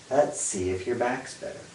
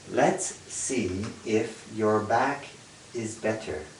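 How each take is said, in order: First: The sentence is said at normal conversational speed. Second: The sentence is said slowly, word by word.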